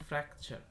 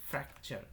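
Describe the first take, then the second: Both takes have the same delivery.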